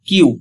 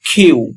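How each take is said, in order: First: The k is plain, without a puff of air. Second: The k is followed by a puff of air. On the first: The speaker calls it wrong. "But এর সঠিক উচ্চারণ কিউ হবে না" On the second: The speaker calls it right. "এর সঠিক উচ্চারণ হবে খিউ"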